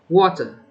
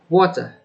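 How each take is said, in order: First: It is said in a British accent. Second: It is said in a British accent.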